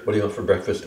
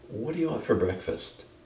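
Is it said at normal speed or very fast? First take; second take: very fast; normal speed. First: It is said as fast as possible. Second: It is said at a normal pace.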